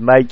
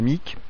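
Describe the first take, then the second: First: The vowel sounds like 'eye'. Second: The vowel sounds like 'ih'. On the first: The speaker calls it right. "faut bien prononcer Mike" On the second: The speaker calls it wrong. "et non pas Mick"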